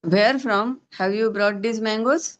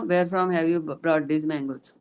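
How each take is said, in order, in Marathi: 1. शेवटी स्वर वर जातो. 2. शेवटी स्वर सपाट राहतो. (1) "मँगो वरती गेला की नाही उच्चारामध्ये" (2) "असं जर फ्लॅटली जर वाक्य बोललात तुम्ही"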